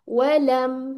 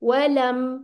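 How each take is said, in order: First: The final m sound is held briefly. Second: The final m sound is held briefly.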